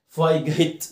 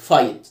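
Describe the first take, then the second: First: A g sound is heard in the middle. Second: No g sound is heard in the middle. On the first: The speaker calls it wrong. "ما قلتش فاي جيت، ما ينفعش" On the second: The speaker calls it right. "الجي اتش سايلنت"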